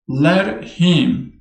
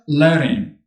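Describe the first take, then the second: First: Both words are said fully and separately. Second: The words run together and the h drops.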